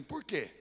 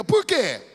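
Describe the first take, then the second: First: Lower, softer asked question. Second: Loud, ringing "Por quê?"; loud question. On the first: Preacher prompting the church, soft "Por quê?". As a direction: ask it quietly, almost to yourself, "Por quê?". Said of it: "diga assim". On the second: Preacher prompting the church, loud ringing "Por quê?". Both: Shown as a demonstration.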